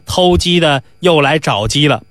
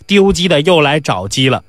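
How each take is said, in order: First: Said in the usual way. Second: 丢 picked out as a correction; stress on 丢. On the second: Acted. Doorman grumbling about a caller, stress on 丢. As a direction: lean on 丢, the corrected word. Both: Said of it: "不是，丢鸡的".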